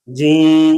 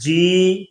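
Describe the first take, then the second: First: جی with a long nasal ee; nasalized vowel. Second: Said in the usual way. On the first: Shown as a demonstration. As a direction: push the ee of جی into the nose. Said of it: "جی کو جی کہنا غلط ہے". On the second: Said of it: "پڑھیں گے صحیح اور غلط".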